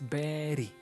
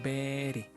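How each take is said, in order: First: The middle consonant sounds like a soft D. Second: The middle consonant sounds like a soft D.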